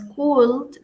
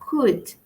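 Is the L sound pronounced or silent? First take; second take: pronounced; silent. First: The L sound is pronounced. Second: The L sound is silent. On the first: The speaker calls it wrong. "No es could" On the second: The speaker calls it right. "sino could, could, sin la L"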